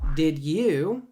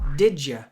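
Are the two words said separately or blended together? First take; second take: separately; blended. First: The d and y sounds stay separate. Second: The d and y sounds blend into j. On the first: "Instead of did you" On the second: "The D and the Y together become a J"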